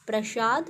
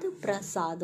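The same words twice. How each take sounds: First: प्रसाद said with "sh", as "prashad"; wrong pronunciation of प्रसाद. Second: प्रसाद with a plain "s", as "prasaad"; correcting softly to "prasaad"; correct pronunciation of प्रसाद. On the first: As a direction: turn the स of प्रसाद into श. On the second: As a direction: keep a clean स in प्रसाद. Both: Shown as a demonstration. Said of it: "प्रसाद होता है".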